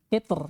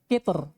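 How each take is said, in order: The two takes are said the same way.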